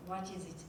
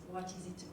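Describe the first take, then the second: No difference in how they are said.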